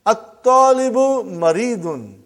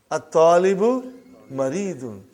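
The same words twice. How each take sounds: First: "At-talibu maridun" louder and slow, lam dropped; loud model reading. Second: Said in the usual way. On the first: Shown as a demonstration. Teacher reads sentence aloud for class, slow and loud. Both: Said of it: "teacher models sentence".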